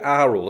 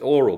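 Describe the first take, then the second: First: It is pronounced unlike the word oral. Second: It is pronounced exactly like the word oral. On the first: It signals hearing rather than speech. "I call it aural" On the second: It suggests speech rather than hearing. "we would normally pronounce it oral"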